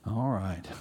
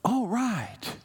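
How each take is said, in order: First: It sounds reluctant and unwilling. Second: It sounds eager and agreeable.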